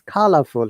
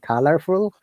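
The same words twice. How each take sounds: First: The R sound is dropped. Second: The R sound is clearly pronounced. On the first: "if there is R sound, we do not pronounce in British English" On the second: "rather than"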